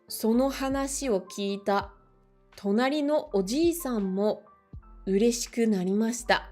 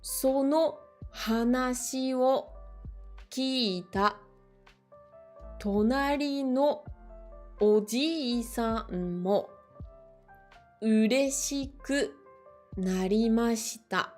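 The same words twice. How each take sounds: First: The sentence is read at a faster pace. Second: The sentence is read at a slower pace.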